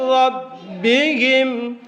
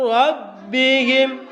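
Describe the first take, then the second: No difference in how they are said.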